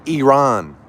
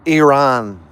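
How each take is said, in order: First: The name has a Persian-style pronunciation. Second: The name has a Persian-style pronunciation.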